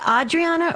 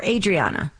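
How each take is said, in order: First: Adriana starting with an open "ah", AH-dree-AH-nuh; open first vowel. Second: Adriana starting like "ay", AY-dree-AH-nuh; long A start. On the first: Host asking caller how to say her name, Adriana with "ah" first. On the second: Host offering caller the other option, Adriana with "ay" first. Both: Shown as a demonstration. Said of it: "is it Adriana or Adriana".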